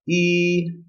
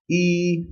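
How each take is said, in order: First: The pitch stays high and level. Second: The same.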